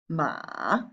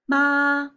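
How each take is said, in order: First: It is said with the third basic tone. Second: It is said with the first basic tone.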